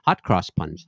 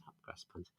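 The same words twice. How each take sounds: First: Said in the usual way. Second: Breathy whispered aside of the pun. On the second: Shown as a demonstration. Host whispering the pun again to the chat, hushed.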